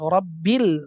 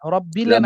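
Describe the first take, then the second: First: The word ends cleanly on the L sound. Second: An extra vowel follows the final L sound. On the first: The speaker calls it right. "রব্বিল, রব্বিলে না" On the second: The speaker calls it wrong. "রব্বিলে না"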